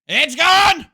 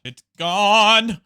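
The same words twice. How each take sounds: First: Very high, full-force scream; over-the-top high victory scream; screaming triumph. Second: Loud, raised shout with GONE held out; big hammed-up victory yell; triumphant shout. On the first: Pretend. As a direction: shriek it at the top of your voice. Repeats the shout at full pitch. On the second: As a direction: crow that it's GONE. Triumphant shout at destroyed farm.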